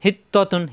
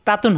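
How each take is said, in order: First: হিত্ততুন with a rounded 'to' in the middle; correct rounded vowel. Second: তাতুন with an open 'taa' first; wrong open vowel. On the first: Teacher drilling the word, correct rounded vowel. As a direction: say হিত্ততুন with doubled t and o, not aa. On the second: Teacher showing learners the mistake, wrong open vowel. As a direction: say তাতুন with aa instead of rounded o. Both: Shown as a demonstration. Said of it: "তাতুন হবে না".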